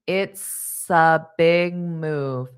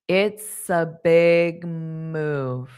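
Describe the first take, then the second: No difference in how they are said.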